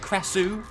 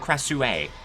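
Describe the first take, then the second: First: The name ends without an added final vowel. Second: The name ends with an added final 'ah' vowel. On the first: The speaker calls it right. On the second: The speaker calls it wrong.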